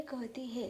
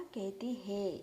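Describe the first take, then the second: First: Said in the usual way. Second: कहती है with a nasalised vowel ending है; anusvar on है. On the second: Shown as a demonstration. (कहती है, है पर अनुस्वार के साथ) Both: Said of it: "यहाँ पर है पर, अ, अनुस्वार है".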